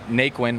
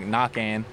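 First: The surname is said the common American way. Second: The surname is said the Cajun French way. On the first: This is how most people say the name. The speaker calls it wrong. "people say it Naquin" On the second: This is how the family's Cajun name is really said. The speaker calls it right. "the real pronunciation"

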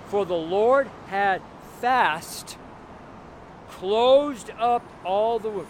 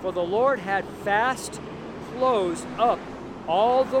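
First: It is read more slowly. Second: It is read at a normal speed.

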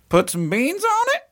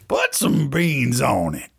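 First: It is said in a questioning tone. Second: It is said in a loving tone.

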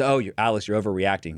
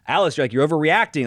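First: It is said flatly, without emotion. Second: It is said with strong emotion.

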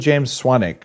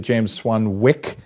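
First: The second W is silent. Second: The second W is clearly pronounced. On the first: "which is how I introduce you on stage" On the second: "I kind of like overpronouncing the W"

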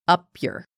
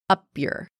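No difference in how they are said.

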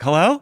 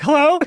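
First: It is said in a normal voice. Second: It is said in a very high voice.

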